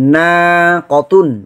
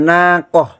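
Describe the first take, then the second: First: The word ends with a t sound and ending. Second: The word ends with an h sound. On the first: This is the full form used in running speech. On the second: This is the form used when stopping on the word.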